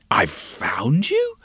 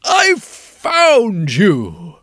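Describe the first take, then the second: First: Slow, lower, bewildered repeat as a question; puzzled echo. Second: Slow, loud cry of triumph; triumphant yell. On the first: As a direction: turn his cry into a puzzled question. She puzzles over his words. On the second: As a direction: call it out slow, he has finally found her. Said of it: "he yelled out in triumph". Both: Acted.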